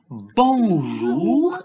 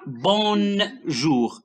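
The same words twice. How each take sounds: First: A nasal vowel, no n consonant. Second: An n consonant is heard after the vowel. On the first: The speaker calls it right. "on dit bonjour" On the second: The speaker calls it wrong. "et pas bonjour"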